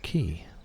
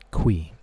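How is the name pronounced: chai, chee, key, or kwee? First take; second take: key; kwee. First: The name sounds like 'key'. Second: The name sounds like 'kwee'. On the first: This is what the speaker always called him. "I had always called him Mister Key" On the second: This is the pronunciation the creator revealed. "The pronunciation of this word right here, this name, is Qui"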